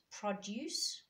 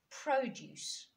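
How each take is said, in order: First: PRODUCE as PRO-duce, first syllable stressed. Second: Produce as pro-DUCE, second syllable higher and stressed. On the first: Teacher contrasting two words, produce stressed on the first syllable. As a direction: say produce as the noun, punching the opening syllable. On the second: Teacher contrasting two words, produce stressed on the second syllable. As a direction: say produce as the verb, leaning on the last syllable. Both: Shown as a demonstration. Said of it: "way in which you stress".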